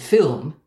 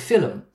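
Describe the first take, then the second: First: The word is said as one syllable. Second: An extra schwa makes the word two syllables.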